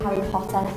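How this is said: The name is said in a relaxed, natural accent. "my accent is like, the E R is more like an E"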